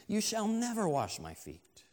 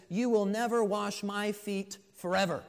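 First: Higher, firm refusal; emphatic refusal. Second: Louder, higher, adamant refusal; even more emphatic. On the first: Peter refuses to let Jesus wash his feet, emphatic. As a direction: refuse firmly, pitch raised on the opening. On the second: Peter absolutely refuses his master, emphatic. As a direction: declare it forcefully, punching the last word. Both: Acted. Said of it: "he's even more emphatic".

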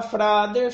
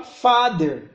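First: "father" said as "frader"; wrong pronunciation. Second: "father" drawn out slowly, no r after the f; correct pronunciation. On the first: Teacher shows the learner's mistake, "father" mispronounced as "frader". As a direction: slip an r after the f in "father". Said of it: "executar a correção, em vez de falar". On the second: Teacher shows the correction, "father" slow and correct. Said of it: "executar a correção". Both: Shown as a demonstration.

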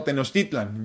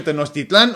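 First: "Tenochtitlan" stressed on TI, not the last A; next-to-last stress. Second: "Tenochtitlán" stressed on the last A; final-syllable stress. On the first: Offering the alternative, "Tenochtitlan" stressed on TI. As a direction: say "Tenochtitlan" as te-noch-TI-tlan. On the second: Asking how others say it, "Tenochtitlán" stressed last. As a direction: say "Tenochtitlán" as te-noch-ti-TLÁN. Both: Shown as a demonstration. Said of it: "ustedes cómo dicen".

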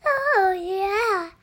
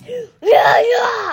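First: Slightly raised, self-imitating voice; a light put-on version of yourself; own voice, demonstrated. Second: Loud mock daddy voice, pitched up; daddy bear voice. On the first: Child showing dad how she talks, playful self-imitation. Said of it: "And I talk like this". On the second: Child showing dad how he talks, loud imitation. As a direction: belt it out as a put-on daddy bear. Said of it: "you talk like this".

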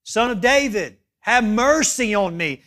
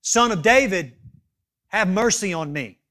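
First: Raised, insistent plea; higher, louder retold cry, held to the end. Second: Mildly raised pleading call; retold cry, easing off at the end. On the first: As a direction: act out a beggar calling more forcefully. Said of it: "he cries out even louder". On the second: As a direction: act out a beggar calling for mercy. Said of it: "that beggar begins to cry out".

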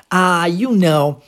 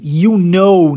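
First: Slow, drawled "ah, you know"; casual you know. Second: Said in the usual way. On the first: Shown as a demonstration. Teacher imitating a speaker's casual you know. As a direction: drag out "ah, you know" like a relaxed native speaker. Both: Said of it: "quando ela usa também essa".

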